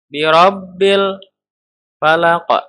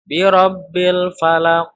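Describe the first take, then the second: First: The L sound is held back and stopped. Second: The L sound is released directly and clearly. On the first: The speaker calls it wrong. "atau tertahan" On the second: The speaker calls it right. "Tapi langsung jelas idhar"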